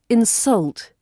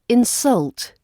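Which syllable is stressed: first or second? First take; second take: second; second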